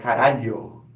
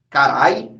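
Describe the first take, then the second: First: The word is said in full, with every syllable. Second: The word is shortened, with the middle sound dropped. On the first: The speaker calls it right. "é caralho" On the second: The speaker calls it wrong. "não é carai"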